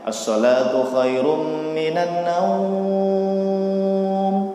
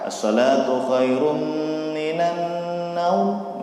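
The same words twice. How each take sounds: First: The vowel in the last word is drawn out long. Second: The vowel in the last word is held briefly. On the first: "Jadi boleh panjang ya" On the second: "Atau dua harokat"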